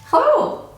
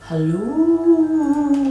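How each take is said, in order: First: It is said in her normal cheerful voice. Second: It is said in a spooky, eerie voice.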